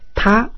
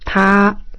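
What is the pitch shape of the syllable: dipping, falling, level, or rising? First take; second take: rising; level. First: The pitch rises from low to high. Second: The pitch stays high and level. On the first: "O segundo é ascendente" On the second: "O primeiro é estável"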